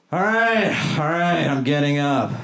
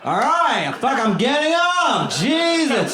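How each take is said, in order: First: Lazy hummingbird. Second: High, slow, put-upon groan; lazy hummingbird. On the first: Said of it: "my impression of a lazy hummingbird". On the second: Comic doing the lazy hummingbird again, higher and more put-upon. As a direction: drag yourself up like a weary tiny bird. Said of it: "It's lazy". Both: Pretend.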